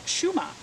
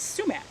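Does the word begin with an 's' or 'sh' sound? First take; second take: sh; s. First: The word begins with a sh sound. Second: The word begins with a plain s sound. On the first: "I grew up hearing everybody call it" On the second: This is the common American pronunciation. "The American way of saying sumac"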